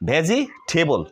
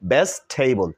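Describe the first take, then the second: First: The word is said with four syllables. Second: The word is said with three syllables. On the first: The speaker calls it wrong. "এটা আমরা সাধারণত বলি ভেজিটেবল" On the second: The speaker calls it right. "This is right pronunciation of ভেজিটেবল"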